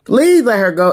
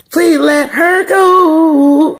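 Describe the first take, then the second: First: Said in the usual way. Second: High, loud, drawn-out wail; hammed-up pleading shout; mock plea. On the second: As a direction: beg the show dramatically to release her.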